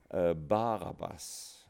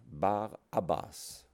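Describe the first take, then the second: The two takes are said the same way.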